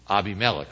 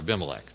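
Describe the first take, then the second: First: The name has a Hebrew-style pronunciation. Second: The name has an English-style pronunciation.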